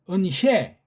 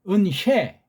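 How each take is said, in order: No difference in how they are said.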